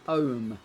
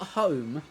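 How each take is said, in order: First: The word begins without any h sound. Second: The word begins with a clear h sound. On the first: "I used to not say H's a lot" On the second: "Not home"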